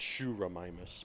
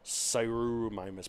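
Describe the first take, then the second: First: It does not begin with an s sound. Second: It begins with an s sound, as in science. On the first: The speaker calls it right. "but no, it's Shuramimus because Greek" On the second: The speaker calls it wrong. "S C I is like Sirimimus"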